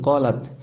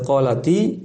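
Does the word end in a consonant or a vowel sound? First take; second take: consonant; vowel. First: The word ends on a bare t consonant. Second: The word ends with an added i vowel. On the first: This is the word's original form. "Ti di situ aslinya sukun qalat" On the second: This eases pronunciation before the next word. "dibaca qalati itu namanya untuk memudahkan pelafalan saja"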